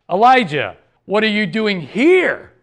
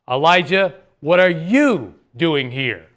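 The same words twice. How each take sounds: First: The stress is on the word here. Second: The stress is on the word you.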